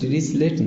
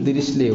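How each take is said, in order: First: The name ends with a t sound. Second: The name ends on a vowel without t. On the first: The speaker calls it wrong. "দৃশ্যলেট না" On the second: The speaker calls it right. "এটাই নাম দৃশ্যলে উচ্চারণ হয়"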